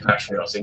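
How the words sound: It is said with a British pronunciation. "we do say patriotic"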